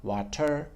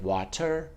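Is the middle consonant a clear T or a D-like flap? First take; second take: clear T; clear T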